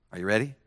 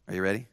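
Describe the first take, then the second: No difference in how they are said.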